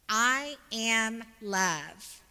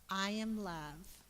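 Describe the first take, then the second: First: It is said with strong conviction. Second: It is said in a plain, calm way.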